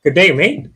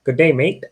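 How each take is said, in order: First: Amateur British accent, higher and louder; shaky-grasp British impression, pitched up; attempted British accent. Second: Unsure stab at an Australian accent; attempted Australian accent. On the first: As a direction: insist on a British accent, rising at the end. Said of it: "That's British". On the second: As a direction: have a go at an Australian greeting. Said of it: "Is that Australian?". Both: Shown as a demonstration.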